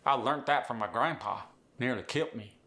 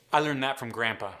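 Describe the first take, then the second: First: Appalachian with T endings; Appalachian accent. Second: Said in the usual way. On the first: Acted. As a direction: hit "learnt" and "kilt" like an Appalachian. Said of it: "sneak a T in".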